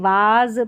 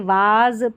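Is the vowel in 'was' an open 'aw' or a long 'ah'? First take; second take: ah; ah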